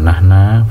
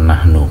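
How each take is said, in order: First: The word ends with an a vowel. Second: The word ends with an u vowel. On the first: The speaker calls it wrong. "bukan nahna" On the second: The speaker calls it right. "dibaca nahnu"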